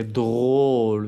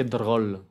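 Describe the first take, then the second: First: "drôle" with a long, closed O, slow; correct closed O. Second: "drôle" with a short open O, like "droll"; wrong open O. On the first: Teacher shows the right vowel, "drôle" with closed O. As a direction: round and hold the O in "drôle". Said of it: "es con una O cerrado". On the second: Teacher shows what not to say, "drôle" with open O. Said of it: "No dije drôle". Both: Shown as a demonstration.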